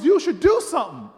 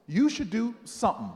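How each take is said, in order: First: Loud, raised insistence; emphatic repeat. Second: Measured, teasing reveal; deliberate punchline. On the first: Miss Jones repeating her advice, loudly insistent. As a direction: drive the advice home forcefully. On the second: Miss Jones finally revealing her advice, deliberate. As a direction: hold back the last word for suspense. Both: Retold or imitated.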